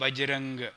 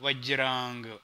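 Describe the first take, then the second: First: The word begins with a b sound. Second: The word begins with a v sound. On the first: This is how the regional dialect turned the word. "అది బజరంగ్ అయిపోయింది" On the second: This is the original form of the word. "వజ్రాంగము అంటే అంగము"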